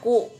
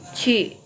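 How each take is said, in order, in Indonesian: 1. Diucapkan seperti 'ku', dengan vokal u. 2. Diucapkan seperti 'ci', dengan vokal i. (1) "tidak boleh dibaca ku" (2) "tapi ci ya"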